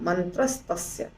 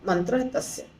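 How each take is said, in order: First: The words merge with an added s sound. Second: The words are said separately without merging. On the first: "दोनों को जब जोड़ते हैं तो मंत्रस्तस्य हो जाता है" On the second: "इसको हम तोड़ के पढ़ सकते हैं"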